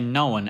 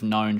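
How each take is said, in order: First: The word is said with two syllables. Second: The word is said with one syllable. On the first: This is how people in their forties say it. "the own ending tends to be pronounced as two syllables" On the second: This is how the speaker says it. "instead of known, like I do"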